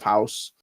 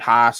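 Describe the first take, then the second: First: It is said with a standard accent. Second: It is said with a Pittsburgh accent.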